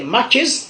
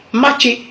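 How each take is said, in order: First: "matches" closing on a z sound; English pronunciation. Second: "matché" ending on an open é; Godié pronunciation. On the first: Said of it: "en anglais". (« matches » à l'anglaise, avec le s final) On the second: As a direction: say ma-tché, no final s. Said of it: "en Gaudier". (« matché » à la godié, sans s final) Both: Shown as a demonstration.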